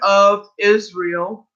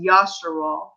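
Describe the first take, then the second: First: The name is said in its usual English form. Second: The name is said in an ancient Hebrew form. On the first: The speaker calls it wrong. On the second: The speaker calls it right.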